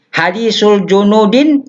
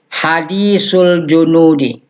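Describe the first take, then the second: First: The last word ends with an added n sound. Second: The last word ends on a plain i vowel. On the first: The speaker calls it wrong. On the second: The speaker calls it right.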